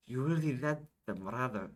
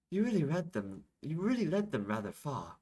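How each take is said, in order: First: Put-on character line begun in the wrong accent; Isabel's line in a mistaken accent. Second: Put-on higher-pitched, impressed remark in a character accent. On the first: Isabel praises Yashish, in the wrong accent. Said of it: "wrong, wrong accent". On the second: Isabel remarks on Yashish's feat, impressed. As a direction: lift the pitch, admiring.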